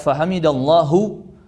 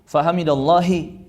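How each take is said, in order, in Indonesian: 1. Frasa itu diakhiri vokal u. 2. Frasa itu diakhiri vokal i. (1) "Tidak boleh dibaca fahamidallahu" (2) "Tidak boleh dibaca"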